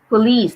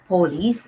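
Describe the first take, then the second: First: The stress is on the second syllable. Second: The stress is on the first syllable. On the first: The speaker calls it right. "So the stress is on the second syllable" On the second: The speaker calls it wrong. "not police"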